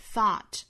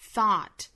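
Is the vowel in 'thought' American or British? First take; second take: American; American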